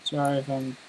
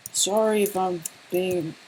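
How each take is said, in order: First: Said in the usual way. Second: Higher, slower sorry if I'm being; mock apologetic. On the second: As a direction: ham up the apology to the chat. Restarts the apology in a put-on voice.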